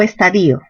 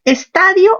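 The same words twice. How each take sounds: First: Estadio said as es-ta-DI-o; stress on I. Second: Estadio said as es-TA-dio; stress on TA. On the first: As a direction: split the ending of estadio, stressing the i. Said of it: "con tilde en la i". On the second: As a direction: hit ta and glide through dio in Estadio. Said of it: "Mayor fuerza en ta". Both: Shown as a demonstration.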